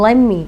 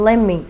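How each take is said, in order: No difference in how they are said.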